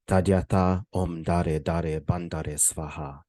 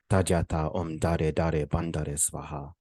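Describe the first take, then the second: First: It is pronounced in a Sanskrit style. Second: The same.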